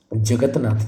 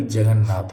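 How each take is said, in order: First: जगतनाथ with the "t" sounded; wrong form. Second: जगन्नाथ with a doubled "n"; correct form. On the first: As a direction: say जगतनाथ as "jagat-nath". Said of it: "जगतनाथ नहीं होता भाई". (जगतनाथ में "त" साफ़ बोलें) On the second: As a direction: say जगन्नाथ as "jagan-nath". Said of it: "जगन्नाथ होता है". (जगन्नाथ में दोहरा "न" बोलें) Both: Shown as a demonstration.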